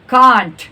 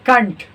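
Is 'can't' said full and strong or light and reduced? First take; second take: full; reduced. First: The word is said fully and strongly. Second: The word is said lightly and reduced. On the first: This is how non-native speakers say it. The speaker calls it wrong. "Non native लोग कैसे बोलते हैं?" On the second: This is how native speakers say it. The speaker calls it right. "और native लोग कैसे बोलते हैं? ... इसको हल्का बोलना है"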